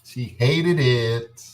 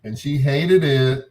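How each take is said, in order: First: "hated" slowed even more, held long; stress on hated. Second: "hated" drawn out slow and loud; stress on hated. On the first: Repeating the punchline to the radio audience, very slow. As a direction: stretch "hated" out very slowly. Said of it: "repeated slower". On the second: Comic telling of his girlfriend's dislike, slow stressed hated. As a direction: lean hard and slow on "hated". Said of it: "emphatic retelling". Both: Real, not acted.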